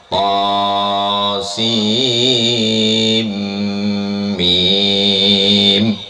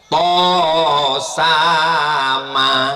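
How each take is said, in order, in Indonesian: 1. Dibaca sebagai tiga nama huruf terpisah. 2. Dibaca bersama sebagai satu kata. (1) "rupanya bukan to sama bacanya" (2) "Aku memang to sama tulisannya"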